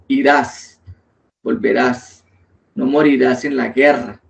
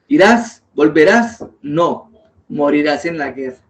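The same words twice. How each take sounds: First: The pause comes before 'no', not after it. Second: The pause comes after 'no', not before it.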